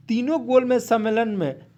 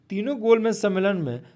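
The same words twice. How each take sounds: The two takes are said the same way.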